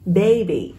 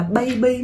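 First: Put-on "baby" with an "ay" glide, falling at the end; English "baby", stressed long first syllable; correct baby. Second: Put-on "baby" with first vowel as a Vietnamese "ây"; Vietnamese-style "baby", both syllables short; mispronounced baby. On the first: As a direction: say "baby" as "BAY-bee". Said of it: "nên là âm a e ha". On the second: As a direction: say "baby" wrongly as "bai-bi". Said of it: "không đọc là baby mọi người nha". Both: Shown as a demonstration.

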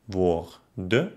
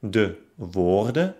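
First: Woor-den with a gap; woorden by syllables. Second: Said in the usual way. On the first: Shown as a demonstration. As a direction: pause after r in woorden. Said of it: "trenne dann das Wort". (woorden nach Silben getrennt) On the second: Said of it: "Zum Beispiel".

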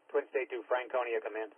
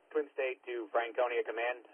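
Both takes have the same delivery.

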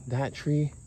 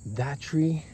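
The two takes are said the same way.

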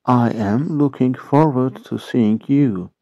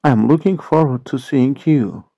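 First: Slow model repeat. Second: Said in the usual way. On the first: Shown as a demonstration. English teacher repeating the sentence for Turkish learners, slow model repeat. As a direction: spread out "I am looking forward to seeing you".

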